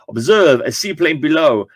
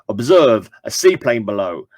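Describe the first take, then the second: First: It is said in a French accent. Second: It is said without a French accent.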